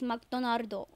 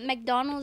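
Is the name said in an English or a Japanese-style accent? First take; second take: Japanese-style; English. First: The name is said with a Japanese-style accent. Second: The name is said with English pronunciation. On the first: "it's McDonardo" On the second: "it's not McDonald's"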